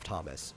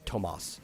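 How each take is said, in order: First: The name is said with an English pronunciation. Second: The name is said with a Spanish pronunciation. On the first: "instead of Thomas" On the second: "they would say Tomas"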